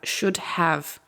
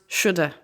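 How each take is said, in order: First: Both words are said fully, with have. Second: Have is reduced to a weak schwa sound.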